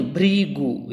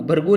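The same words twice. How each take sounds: First: "भृगु" as bhree-gu, ri drawn out; correct pronunciation. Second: "भृगु" as bhar-gu, with an a; wrong pronunciation. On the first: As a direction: stretch the bhri in "भृगु". ("भृगु" में खींचकर 'भ्रि' बोलना) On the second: ("भृगु" को 'भरगु' जैसा गलत बोलना) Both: Shown as a demonstration. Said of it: "भृगु नहीं".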